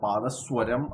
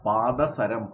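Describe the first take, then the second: First: The middle syllable is said as 'swa'. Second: The middle syllable is said as plain 'sa'. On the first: The speaker calls it wrong. "പാദസ്വരം അല്ല" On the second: The speaker calls it right. "പാദസരം, പാദത്തിൽ സരിക്കുന്നത്"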